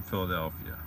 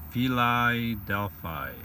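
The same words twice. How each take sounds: First: Said in the usual way. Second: Slow "Philadelphia" said as "Fie-lie-delf-eye"; "Philadelphia" drawn out with silly long "eye" vowels; playful mispronunciation. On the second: Pretend. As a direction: stretch "Philadelphia" out, rhyming both the second and last syllables with "eye". Deliberately silly pronunciation of city.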